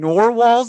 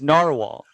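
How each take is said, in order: First: The first syllable sounds like 'nor'. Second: The first syllable sounds like 'nar'. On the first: The speaker calls it wrong. "nor like a door" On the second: The speaker calls it right. "I think it's narwhal"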